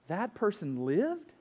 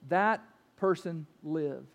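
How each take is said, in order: First: It is said with a questioning rise at the end. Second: It is said as a flat, matter-of-fact statement.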